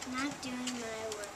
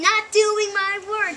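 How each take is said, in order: First: It is said fairly quietly. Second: It is said loudly, like yelling.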